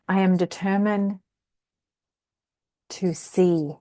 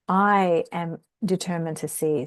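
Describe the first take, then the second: First: The stress falls on the word determined. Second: The stress falls on the word I. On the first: It connects with the strength of resolve. "when we put the emphasis on the determined" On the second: The small self is the one not seeing. "with the emphasis on the I"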